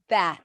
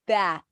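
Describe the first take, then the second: The two takes are said the same way.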